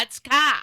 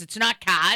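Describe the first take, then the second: First: CAR louder and higher, Boston R-less vowel blown up; over-the-top Boston accent. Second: Boston CAR with the R dropped; Boston accent. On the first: Stand-up bit correcting film accents, over-the-top Boston CAR. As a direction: hammer an exaggerated Boston CAR with no R. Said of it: "Like, it's over the top". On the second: Stand-up bit mocking film Boston accents, milder Boston CAR. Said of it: "these horrific Boston accents". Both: Shown as a demonstration.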